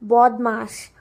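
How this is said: It is said with a Bengali rounded 'o' vowel.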